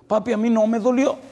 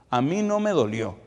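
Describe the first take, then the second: First: Put-on high, loud child's cry; son crying out. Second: Put-on a child's raised, pleading voice; son pleading. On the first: A son shouts to comfort his crying father, high and loud. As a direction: cry it out to papi at full force. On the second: A son hugs his crying father, pleading, higher and louder. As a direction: plead to comfort crying papi.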